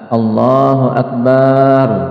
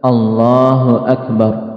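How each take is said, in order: First: The vowel after the b is drawn out long. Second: The vowel after the b is kept short. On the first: The word means drums instead of greater. The speaker calls it wrong. "ba-nya dipanjangkan. Ini salahnya lebih fatal" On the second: The phrase means God is greatest. The speaker calls it right. "Jadi lafazkan dengan benar"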